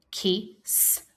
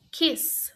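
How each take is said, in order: First: "kiss" split into "ki", pause, "sss"; sounded out. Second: Said in the usual way. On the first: Shown as a demonstration. Teacher inviting pupils to help, kiss split as ki, s. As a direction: set the final S of "kiss" apart. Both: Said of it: "Help me say".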